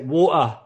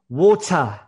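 First: The T sound in the middle is dropped. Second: The T sound in the middle is pronounced. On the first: "Or I might even just drop the T altogether" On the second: "in the UK, I would probably say water"

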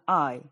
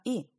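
First: The letter sounds like 'eye'. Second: The letter sounds like a short 'ee'. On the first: This is the English way of saying the letter. The speaker calls it right. "es una I" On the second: This is the Spanish way of saying the letter. The speaker calls it wrong. "en inglés no es una I"

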